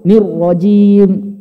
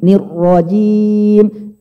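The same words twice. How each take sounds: First: The lips are pushed forward and rounded. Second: The lips stay unrounded, not pushed forward. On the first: The speaker calls it wrong. "Tapi tidak perlu monyong Pak ya, nggak perlu nir rajim" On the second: The speaker calls it right. "Tapi usahakan jangan monyong"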